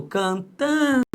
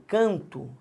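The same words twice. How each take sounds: First: "cantamos" with TAN pitched high and drawn out; stress on TAN. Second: "canto" with the first syllable CAN stressed. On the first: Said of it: "a sílaba tônica é o tan". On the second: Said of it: "A sílaba tônica é o can". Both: Shown as a demonstration.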